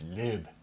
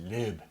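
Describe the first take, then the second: First: The vowel is a short front sound. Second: The same.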